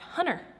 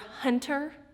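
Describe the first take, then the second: First: The t sound is dropped or blurred. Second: The t sound is clearly pronounced. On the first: "it would normally be like hunter" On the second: "I am enunciating the word hunter"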